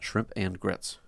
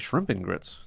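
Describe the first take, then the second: First: The word 'and' is said in full. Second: The word 'and' is reduced to 'n'. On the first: The speaker calls it wrong. "not shrimp and grits" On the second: The speaker calls it right. "you just have to say shrimp and grits"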